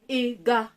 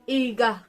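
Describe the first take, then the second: No difference in how they are said.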